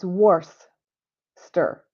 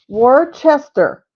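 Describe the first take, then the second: First: The middle 'cest' part is dropped. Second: The middle 'cest' part is fully pronounced. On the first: The speaker calls it right. "It's Worcester" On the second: The speaker calls it wrong. "I always thought it was Worcester"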